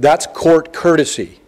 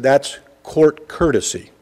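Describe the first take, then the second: First: A touch of the preacher, a bit fuller; mild sermonizing tone; light preaching mode. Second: Said in the usual way. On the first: Retold or imitated. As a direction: lecture the kid gently, pulpit-style. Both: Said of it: "I was in a little bit of a preaching mode".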